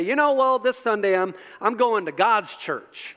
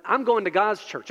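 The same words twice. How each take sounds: First: Southern twang. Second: Said in the usual way. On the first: Retold or imitated. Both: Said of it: "they say it in that twang".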